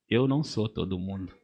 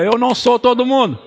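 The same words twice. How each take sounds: First: Low and soft, almost to himself; quiet declaration. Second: Higher and louder, a proclaimed creed; loud declaration. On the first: Pastor first saying it quietly before the church repeats it, low and soft. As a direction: set down the words lower and softer. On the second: Pastor pointing at the church to proclaim it louder and higher. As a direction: say it out with full conviction. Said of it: "Aponto pra você assim, diga". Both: Shown as a demonstration.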